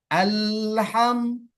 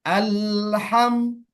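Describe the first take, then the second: No difference in how they are said.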